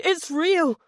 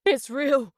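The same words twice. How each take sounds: First: High panicked scream. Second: Panicked inner cry; It's real cried in panic; inner scream. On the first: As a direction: scream It's real in terror. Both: Acted. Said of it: "Jack's mind screamed".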